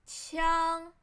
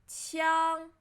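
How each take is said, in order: The two takes are said the same way.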